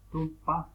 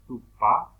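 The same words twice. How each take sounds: First: "tupa" with the final a through the nose; nasal vowel. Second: Said in the usual way. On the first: Shown as a demonstration. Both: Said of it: "la vocal suena por la nariz".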